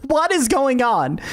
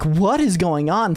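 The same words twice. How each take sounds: First: Higher, slowed, insistent question; urgent demand. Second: Said in the usual way. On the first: Retold or imitated. Dad on the phone demanding to know, urgent and drawn out. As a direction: press hard for an answer, drawn out.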